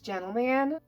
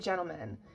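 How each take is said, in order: First: The last syllable sounds like 'man'. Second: The last syllable sounds like 'men'. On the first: It refers to one person. "I always thought that when it's like one person, it's Gentleman" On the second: It refers to multiple people. "so many like people pronounce it Gentleman"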